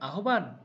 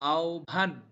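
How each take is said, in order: First: The h is sounded before a plain b. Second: An o-like vowel is heard before bh. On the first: The speaker calls it wrong. "আসলে কি শব্দটির উচ্চারণ আহ্বান? না" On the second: The speaker calls it right. "আ ও ভ আকার ভা দন্ত ন"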